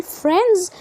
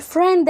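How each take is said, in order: First: FRIENDS as "frenz", d left out; silent D. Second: FRIEND with its final d sounded; D pronounced. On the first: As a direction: drop the d in "friends" to lighten it. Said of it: "بخلي الدي مش منطوقه". (نطق friends من غير دي) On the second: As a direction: say "friend" keeping the d. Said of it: "هتنطق الدي". (نطق friend مع إظهار الدي) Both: Shown as a demonstration.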